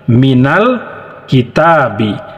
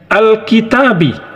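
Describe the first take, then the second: First: The word is joined on without its opening vowel. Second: The word starts separately with an opening vowel. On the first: "Kalau kita baca dari minal kitabi, huruf hamzahnya tidak kita baca" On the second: "kalau kita baca dari alif lamnya menjadi al-kitabu, dia menjadi huruf hidup"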